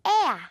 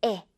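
First: 에야 stretched and higher, gliding from e to a; emphatic long 에야 glide; rubber-band vowel. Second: Simple short 에 with no glide; the unpulled 에; short plain 에. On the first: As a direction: pull 에야 out like a yellow rubber band. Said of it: "노란 고무줄 발음". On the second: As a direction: say 에 as one unstretched vowel. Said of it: "그냥 에, 이게 아니라". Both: Shown as a demonstration.

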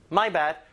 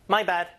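The two takes are said the same way.

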